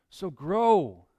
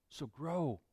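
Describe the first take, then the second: First: Louder, pressing "So grow" with "grow" landing hard; firm call. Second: A hushed, inward "So grow"; soft repeat. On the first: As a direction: proclaim it to the room. Preacher repeats the text firmly. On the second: Preacher repeats the text softly. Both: Acted.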